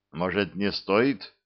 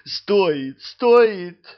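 First: Unsure. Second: Rising higher and louder, insistent; eager insisting. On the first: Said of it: "неуверенно сказал он". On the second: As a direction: press it eagerly, building up. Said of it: "замахал руками демон". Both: A narrator's reading.

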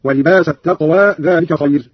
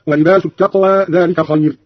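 First: ولباس ending in a, wa-libasa; fatha on sin. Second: Said in the usual way. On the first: Shown as a demonstration. Teacher showing Qalun's reading, ولباس as wa-libasa. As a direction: give the س of ولباس an a, wa-libasa t-taqwa. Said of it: "بنصب السين هكذا". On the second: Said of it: "قرأ قالون بنصب السين".

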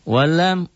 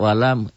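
First: Walam drawn out high and chanted; Quran recitation. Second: Said in the usual way. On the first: Shown as a demonstration. (walam dilantunkan tinggi dan panjang) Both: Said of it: "recited vs explained word".

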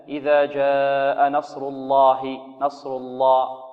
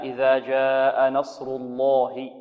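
First: نصر الله with a lam too light; weak lam. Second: الله with a fully heavy lam; slow recitation with a strong heavy lam; full heavy lam. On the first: Retold or imitated. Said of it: "بعض طلبة القرآن يقولون". (تغليظ ضعيف للام خطأ) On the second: Shown as a demonstration. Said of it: "لا". (تغليظ جيد للام في الله)

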